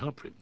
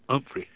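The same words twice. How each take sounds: First: The name starts with an audible H sound. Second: The name starts without any H sound.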